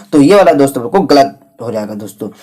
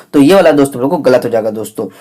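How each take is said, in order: No difference in how they are said.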